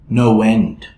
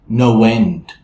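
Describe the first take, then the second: The two takes are said the same way.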